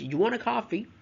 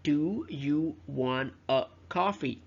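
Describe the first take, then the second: First: The words are run together and reduced. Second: Each word is said fully and separately. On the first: "As in connected speech" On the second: "the correctly grammatical version"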